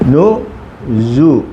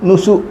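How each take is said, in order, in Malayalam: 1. മധ്യ വ്യഞ്ജനം മൂളുന്ന z ശബ്ദമാണ്. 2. മധ്യ വ്യഞ്ജനം ചീറ്റുന്ന s ശബ്ദമാണ്. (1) "ഇത് ഉച്ചാരണം ഇസഡിൻ്റെ ഉച്ചാരണം" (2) "നുസു നുസു അല്ല"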